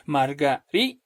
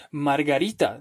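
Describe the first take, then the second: First: "Margarita" broken after a held RI, then a detached -ta; marga-RI... ta, teacher's split; stress on RI. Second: Said in the usual way. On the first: Shown as a demonstration. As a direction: hold up RI in "Margarita" before releasing -ta. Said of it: "esa vendría a ser una palabra grave". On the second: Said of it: "sería una palabra grave".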